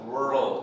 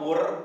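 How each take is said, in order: First: The word ends with a clear R and L. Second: The word ends without a clear R or L. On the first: The speaker calls it right. "Tapi L-nya di belakang diikutkan" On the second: The speaker calls it wrong. "R-nya kurang jelas"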